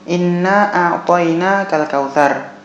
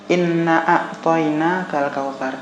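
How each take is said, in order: First: The word inna is held at full length. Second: The word inna is cut short. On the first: The speaker calls it right. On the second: The speaker calls it wrong.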